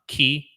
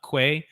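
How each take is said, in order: First: It is said as 'key', the English way. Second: It is said as 'kway', not the English way.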